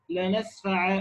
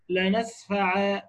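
First: لنسفع ending in a long alif, "lanasfa"; الوقف بالألف على لنسفع; pause on alif. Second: لنسفع said slowly, trailing off at the end; slow teaching demo of لنسفع; نطق لنسفع عند الوقف; demo of the pausal form. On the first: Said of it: "بنقف بألف". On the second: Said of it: "برضو بنقف بألف". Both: Shown as a demonstration.

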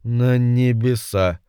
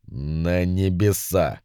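First: Imp repeating slowly, not understanding; puzzled little demon echo. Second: Infinitely sad. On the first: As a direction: echo the word without grasping it. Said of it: "повторил за ним Йетеринг". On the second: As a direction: force out the word with endless sorrow. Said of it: "бесконечно печальным голосом закончил Вельзевул". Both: A narrator's reading.

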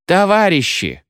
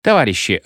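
First: Shouted appeal. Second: Restrained, measured appeal; persuading. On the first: Militia appealing to the rioting crowd, shouting. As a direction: call out high over the crowd. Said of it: "кричала милиция". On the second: Mounted militia coaxing the crowd to be sensible, persuading. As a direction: reason with them in an everyday voice. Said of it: "Конная милиция свистела и уговаривала". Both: A narrator's reading.

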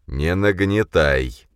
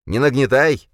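First: Slow, heavy command; deep voice. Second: High, loud parroting; mocking shout. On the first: Yovar calms Khranka, slow and deep. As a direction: say it slowly and weighty. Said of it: "проговорил Йовар густым голосом". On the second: Khranka mimics Yovar, high and loud. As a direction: throw the words back higher. Khranka mocks back shrilly. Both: A narrator's reading.

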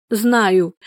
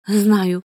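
First: Breathy gasp of a woman in labour; heavy breathing. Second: Said in the usual way. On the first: A narrator's reading. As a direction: puff it out between pains. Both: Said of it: "тяжело дышала она".

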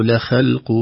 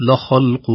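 First: لخلق said thin throughout, /laxelq/; wrong, all thin. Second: لخلق said heavy throughout; wrong, all heavy. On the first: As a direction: keep every letter of لخلق thin. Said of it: "لا ترقق كلها ولا تفخم كلها". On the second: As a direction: make every letter of لخلق heavy. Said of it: "خوف من نقول". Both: Shown as a demonstration.

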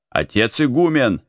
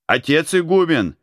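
First: Calling the abbot, raised voice. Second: Higher, louder desperate call. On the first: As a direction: call out to the abbot. (окликает отца игумена) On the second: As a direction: shout for the abbot across the yard. (громкий отчаянный зов) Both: A narrator's reading. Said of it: "начал кричать он".

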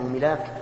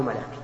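First: ملاك said milāk, with an "i" after the m; first syllable of ملاك as "mi"; kasra on ملاك. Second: ملاك said malāk, with an "a" after the m; first syllable of ملاك as "ma"; fatha on ملاك. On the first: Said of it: "أو ملاك بالكسر". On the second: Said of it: "ملاك بالفتح". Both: Shown as a demonstration.

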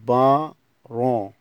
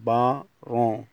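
No difference in how they are said.

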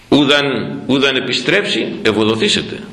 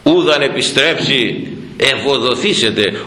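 First: Said in the usual way. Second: Verse intoned slowly; slow recited verse. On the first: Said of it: "Βλέπεις η επιμονή". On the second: Shown as a demonstration. Priest quoting the hymn verse to the congregation, slow recitation. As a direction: chant the hymn line slowly, weighing each word. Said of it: "να δεις αυτό που λέει εδώ ο στίχος".

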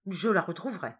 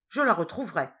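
First: Repeated vow. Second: Louder vow, stress on la; cried with conviction. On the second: Escander vowing to his boss to find her, loud fervent cry. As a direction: shout the promise with full conviction. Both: A narrator's reading. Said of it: "Il cria ces derniers mots avec une conviction telle".

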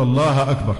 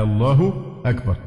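First: الله أكبر with an a-vowel on the ha, Allaha; faulty vowel ending. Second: Said in the usual way. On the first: Shown as a demonstration. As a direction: end الله in -a before أكبر. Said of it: "بعضهم يقول". (فتح هاء «الله») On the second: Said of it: "الألف قبل الهاء".

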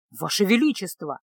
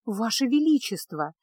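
First: Bold address; defiant. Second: A hint of a cracking voice; plead, voice wavering; voice breaking. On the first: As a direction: lift the head and speak up. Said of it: "дерзко вскинулся". (дерзко) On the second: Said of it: "срывающимся голосом". (срывающимся голосом) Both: A narrator's reading.

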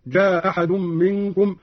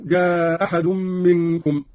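First: جاء أحد run together as "jaa-ahadun", short madd; dropped hamza, short. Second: جاء أحد as "jaaa-ahadun", lengthened aa; dropped hamza, madd. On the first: Teacher demonstrating Qalun's جاء أحد with qasr. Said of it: "بإسقاط الهمزة الأولى مع القصر". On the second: Teacher demonstrating Qalun's جاء أحد with madd. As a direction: drop the first hamza of جاء أحد, stretch the vowel. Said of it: "مع القصر والمد". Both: Shown as a demonstration.

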